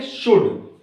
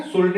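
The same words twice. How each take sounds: First: "शुड" with the vowel straight into D; "शुड", L dropped; silent L. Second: "शुल्ड" with an audible L before the D; wrong-way "शुल्ड", L audible; L sounded. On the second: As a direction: say "शुल्ड" pronouncing the L. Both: Shown as a demonstration. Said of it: "शुल्ड नहीं बोलेंगे".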